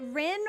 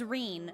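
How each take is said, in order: First: The name has a short i vowel. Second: The name has a long ee vowel. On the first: "is it Rin or is it Reen?" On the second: "it is Reen"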